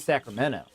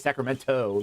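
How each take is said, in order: First: The T sound is dropped from the word. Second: The T sound is pronounced clearly. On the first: This is how locals say it. "but we say Sacramento" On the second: This is how outsiders say it. "we don't say Sacramento. Like just the that T, we just never we never say it"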